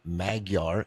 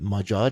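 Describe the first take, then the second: First: The middle consonant is a hard g sound. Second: The middle consonant is a soft j sound. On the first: The speaker calls it wrong. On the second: The speaker calls it right. "as I say on every episode"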